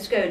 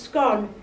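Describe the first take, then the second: First: Scone is said the southern way. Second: Scone is said the northern way. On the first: "scone in the south" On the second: "scone north of the border"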